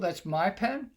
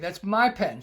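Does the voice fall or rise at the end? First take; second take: rise; fall. First: The voice rises at the end. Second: The voice falls at the end. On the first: The speaker questions whether the pen is theirs. "I'm going up at the end" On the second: The speaker asserts the pen is theirs. "You're making a statement"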